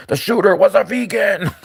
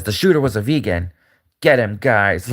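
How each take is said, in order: First: Higher, put-on accusing pundit voice; mock Megyn Kelly. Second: Lightly lower, a hint of a scheming villain; mock villain Megyn Kelly. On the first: Imitating Megyn Kelly blaming a vegan shooter, high and shocked. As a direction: announce it like a shocked newscaster. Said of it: "Megyn Kelly's like". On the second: Megyn Kelly as Batman villain ordering her goons, lightly menacing. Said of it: "she's like a villain".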